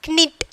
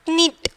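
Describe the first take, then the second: No difference in how they are said.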